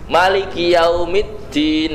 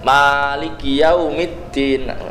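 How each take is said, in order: First: The first vowel of Maliki is short. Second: The first vowel of Maliki is long. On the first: It means king. "malikinya pendek" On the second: It means owner. "dibaca panjang"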